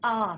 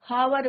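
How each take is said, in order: First: The word begins directly with a vowel sound. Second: The word begins with an audible h sound. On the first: The speaker calls it right. "H is your silent" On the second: The speaker calls it wrong. "हम हावर नहीं बोलते इसको"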